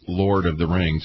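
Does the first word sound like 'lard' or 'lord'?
lord. The first word has a standard 'or' vowel. "we don't pronounce it Lord of the Rings"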